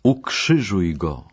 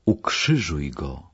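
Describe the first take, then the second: First: Slow, firmer narrated shout, still contained; insistent crowd cry. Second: Slow, restrained narrated shout; a held-back cry from the mob; understated crowd cry. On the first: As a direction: press the crowd's demand slowly, a touch more forcefully. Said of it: "jeszcze głośniej krzyczeli". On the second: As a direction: give the crowd's demand slowly, without shouting. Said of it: "Tłum wrzeszczał". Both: A narrator's reading.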